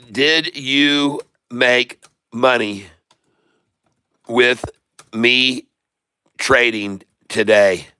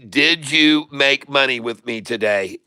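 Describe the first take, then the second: First: Each word drawn out and spaced apart, lower; asking again slowly so everyone gets it; slow, deliberate question. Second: Said in the usual way. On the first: Real, not acted. Streamer repeats question slowly for viewers.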